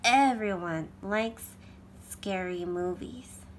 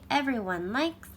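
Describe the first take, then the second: First: The word everyone is emphasized. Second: The word everyone is said plainly.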